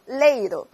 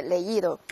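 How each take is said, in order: First: Leído mis-stressed on the e. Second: Leído with the í carrying the word; stress on í in leído. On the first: Teacher shows leído without its accent, stress on e. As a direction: punch the e, let the i slide. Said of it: "重音就落在谁上？A上". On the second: Teacher recalls the accented example, stress on í in leído. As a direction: lean on the í, separate from e. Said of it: "刚才给大家举过了leer这个例子". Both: Shown as a demonstration.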